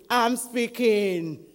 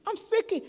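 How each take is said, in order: First: Loud, slow booming answer; God in thunder. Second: Very high, small reply; God answering unheard. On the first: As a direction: stretch it out loudly as God thundering. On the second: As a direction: answer in a high voice without thunder. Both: Acted. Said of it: "And then thunder".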